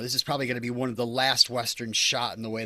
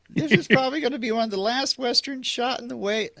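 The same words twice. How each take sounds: First: It is said in an ordinary speaking voice. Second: It is said in a put-on high voice.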